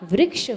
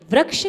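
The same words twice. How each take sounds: First: The r sound is said with an 'i' vowel. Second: The r sound is said with an 'a' vowel. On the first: The speaker calls it right. "होता है" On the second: The speaker calls it wrong. "नहीं होता"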